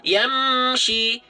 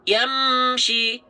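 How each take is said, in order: Both takes have the same delivery.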